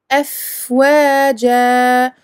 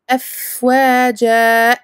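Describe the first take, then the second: First: The final vowel is held and fades out. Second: The final vowel is cut off sharply. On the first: The speaker calls it right. "On laisse le son se, se terminer de lui-même et on fait deux temps" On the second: The speaker calls it wrong. "Attention à ne pas couper à la fin, à ne pas dire"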